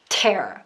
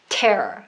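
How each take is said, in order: Both takes have the same delivery.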